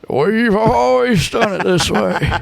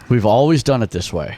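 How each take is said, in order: First: It is said in a put-on old-person voice. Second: It is said in his normal voice.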